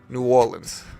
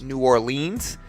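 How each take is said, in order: First: It uses the local pronunciation. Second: It uses the out-of-town pronunciation. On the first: The speaker is from the city. The speaker calls it right. "Most people from New Orleans pronounce it New Orleans like that" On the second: The speaker is probably not from the city. The speaker calls it wrong. "a lot of people from out of town think it's pronounced"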